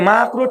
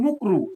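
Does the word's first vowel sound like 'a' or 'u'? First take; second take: a; u. First: The first vowel is an 'a' sound. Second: The first vowel is a 'u' sound. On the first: The speaker calls it right. "মানে মাকরু ঠিক করে বলে না" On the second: The speaker calls it wrong. "এগুলো হচ্ছে মুকরু"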